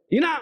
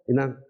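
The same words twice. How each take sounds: First: It is said angrily. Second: It is said gently.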